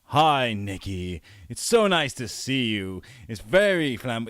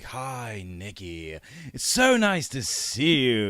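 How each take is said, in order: First: Flamboyant Jack voice. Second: Put-on camp, drawn-out English accent, slower on so nice; flamboyant English accent. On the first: Acted. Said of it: "it was like". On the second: Actor imitates the director's flamboyant English accent for Jack. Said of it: "this really flamboyant English accent".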